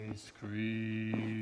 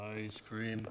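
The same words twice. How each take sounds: First: It is said slowly and drawn out. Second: It is said at normal talking speed.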